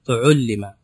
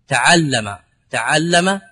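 First: تعلم said as tuʕullima, damma on ta and ayn, kasra on lam; teacher voicing تعلم as tuʕullima for the class; passive form. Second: تعلم said as taʕallama, fatha on ta and ayn; teacher voicing تعلم as taʕallama, all fathas; active form. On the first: Teacher drilling students, pronounces passive tuʕullima. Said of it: "فتقول تعل-، تعلم". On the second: Teacher contrasting for students, pronounces active taʕallama. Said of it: "العين مفتوحة". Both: Shown as a demonstration.

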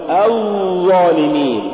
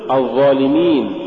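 First: الظالمين with a long droning ظ; overdone za. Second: Said in the usual way. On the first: Shown as a demonstration. Teacher warning against exaggeration, overlong ظ in الظالمين. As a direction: drag out the ظ in الظالمين. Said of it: "ولا تقل". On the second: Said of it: "قل الظالمين".

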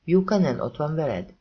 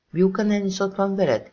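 First: Said in the usual way. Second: Magasabb, hangosabb, ingerült kérdés; ingerülten csattan fel. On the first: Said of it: "Mia kérdése, nyugodt". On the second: A narrator's reading. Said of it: "kérdezte Max ingerülten". (ingerült, felcsattanó kérdés)

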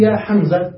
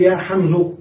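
First: يا حمزة ending on an open a, يا حمزَ; ending with fatha. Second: يا حمزة ending on a clear u sound, يا حمزُ; ending with damma. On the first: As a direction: keep the fatha on the zay in يا حمزة. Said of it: "فيترك ما كان قبلها". (نطق يا حمزَ بالفتح) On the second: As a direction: say يا حمزة closing with damma on the zay. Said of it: "فيضم، فيقول". (نطق يا حمزُ بالضم) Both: Shown as a demonstration.

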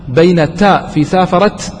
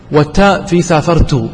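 First: سافرت said saafarat, feminine t unvoweled; سافرت as saafarat, ending on a silent t. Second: سافرت said saafartu, ending in -tu; سافرت as saafartu, subject pronoun ta; ta with damma. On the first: Teacher says سافرت with the feminine ta for the students. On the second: Teacher says سافرت with the pronoun ta for the students. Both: Shown as a demonstration. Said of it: "سؤال كثيرًا ما يسأله الشباب".

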